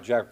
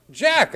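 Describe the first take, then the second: First: Said in the usual way. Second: A much higher, yelped "Jack"; alarmed call. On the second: Retold or imitated. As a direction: yelp the name "Jack" in alarm.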